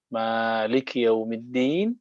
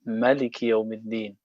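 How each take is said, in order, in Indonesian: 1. Vokal pertama dari Maliki panjang. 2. Vokal pertama dari Maliki pendek.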